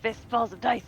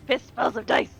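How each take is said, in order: Both takes have the same delivery.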